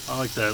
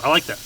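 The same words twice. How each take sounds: First: Soft, quieter repeat to himself. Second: Said in the usual way. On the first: Real, not acted. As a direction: murmur it again under your breath. Repeats approval, then softer echo.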